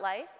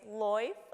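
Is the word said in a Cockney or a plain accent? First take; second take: plain; Cockney. First: The word is said in a plain accent. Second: The word is said in a Cockney accent. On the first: "It's not life" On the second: "I always hear it as like in a Cockney accent"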